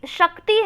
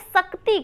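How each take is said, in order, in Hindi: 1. क् और त् के बीच कोई स्वर नहीं आता। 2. क् और त् के बीच एक स्वर जोड़ा जाता है। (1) "आधा का रहेगा शक्ति में" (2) "बच्चा इसको क्या कर रहा है, पूरा कर"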